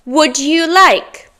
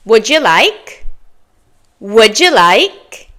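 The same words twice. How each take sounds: First: Slow "would you like?" with separate words, falling; "would you like?" with d and "you" distinct; careful full form. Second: "Would you like?" as "wouldja like", rising; native linked form. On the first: Teacher reviews phrase number three, slow full form. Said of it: "go over those common phrases again". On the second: Teacher models for learners to repeat, linked form. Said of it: "Your turn". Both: Shown as a demonstration.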